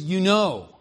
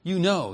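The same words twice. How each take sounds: First: KNOW stressed in "You know"; quoting stress. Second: Said in the usual way. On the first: Shown as a demonstration. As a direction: read the quoted "know" with a clear push. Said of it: "and he says".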